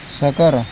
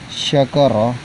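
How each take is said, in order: First: The word begins with an s sound. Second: The word begins with an sh sound. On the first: It means being drunk. The speaker calls it wrong. "tapi kadang dia membaca menjadi sakara" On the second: It means being grateful. The speaker calls it right. "Harusnya bacanya syakara"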